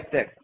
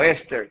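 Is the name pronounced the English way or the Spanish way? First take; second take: Spanish; English. First: The name is pronounced the Spanish way. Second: The name is pronounced the English way.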